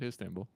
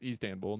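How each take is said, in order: First: "Istanbul" opening with a short i, HISS-tan-bool; wrong pronunciation. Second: "Istanbul" opening with a long ee, EES-tan-bool; corrected pronunciation. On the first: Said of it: "not Istanbul". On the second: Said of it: "Which I guess is pronounced". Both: Shown as a demonstration.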